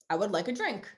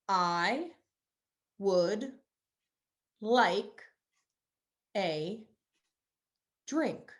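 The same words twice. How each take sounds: First: The words are run together in one flow. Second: Each word is said separately with breaks between. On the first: "Totally normal" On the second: "Each word has a moment in the spotlight"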